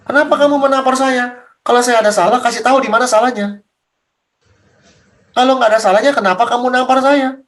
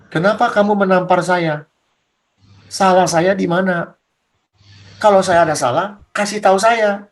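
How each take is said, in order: First: Lightly voiced Jesus, more insistent; Jesus questioning. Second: Lower, measured questioning as Jesus; Jesus style. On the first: Jesus challenging the one who slapped him, mildly insistent. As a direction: press the questions in a somewhat raised voice. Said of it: "Yesus ngomong begitu". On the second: Acted. Jesus questioning the one who slapped him, low and measured. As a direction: ask it low and unhurried, like Jesus. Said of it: "gayanya Yesus".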